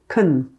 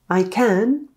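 First: Can is said with a weak, reduced vowel. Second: Can is said with a full, clear vowel. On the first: "becomes more like can" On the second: "I can becomes"

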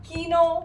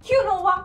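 First: It is said in two syllables as keeno. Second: It is said in three syllables as kyunova.

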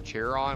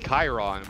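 First: The name starts with a 'ch' sound. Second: The name starts with a 'k' sound. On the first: "I'm on a chair, chair on, but that that doesn't sound right" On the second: "So I want to say Chiron, but it's a C H, not a K"

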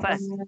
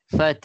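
First: The final h is not clearly sounded. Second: The final h is lightly but clearly sounded. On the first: The speaker calls it wrong. "Bukan fath" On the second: The speaker calls it right. "Fathah mati, ha bunyi sikit. ... Macam tu"

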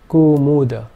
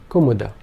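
First: The first two vowels are long. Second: All three vowels are short. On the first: "If both the first two vowel sounds were long" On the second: "all three vowel sounds being short"

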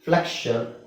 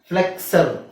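First: The middle consonants sound like ksh. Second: The middle consonants sound like ks. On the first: The speaker calls it right. "ಅಂತಾನೆ ಹೇಳಬೇಕು" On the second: The speaker calls it wrong. "ಎಕ್ಸ್ sound ಸು ಅಂತ ಹೇಳಕ್ಕಾಗಲ್ಲ"

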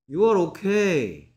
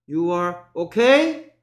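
First: The pitch falls at the end. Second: The pitch rises at the end. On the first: It is a plain statement. The speaker calls it right. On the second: It sounds like a question. The speaker calls it wrong.

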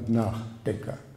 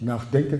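First: The stress falls on the first part, nach. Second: The stress falls on the second part, denker. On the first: The speaker calls it right. "Betonung von nach" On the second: The speaker calls it wrong.

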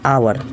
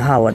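First: The word begins directly with a vowel. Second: The word begins with an h sound. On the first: The speaker calls it right. "हावर होता ही नहीं है, यह होता है आवर" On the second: The speaker calls it wrong. "सभी लोग इसको हावर पढ़ते हैं, हावर, जो कि क्या है, गलत है"

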